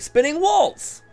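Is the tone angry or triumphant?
triumphant. It is said in a triumphant tone.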